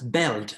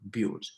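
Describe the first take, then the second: First: The vowel sounds like the one in bell. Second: The vowel sounds like the one in bill. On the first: The speaker calls it wrong. "not pronounced as belt as people do it in Cameroon" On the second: The speaker calls it right. "it is built"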